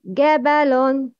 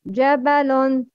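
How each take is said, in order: First: The word begins with a hard g sound. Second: The word begins with a j sound. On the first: The speaker calls it wrong. "Gabalon is wrong" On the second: The speaker calls it right. "It's Jabalon"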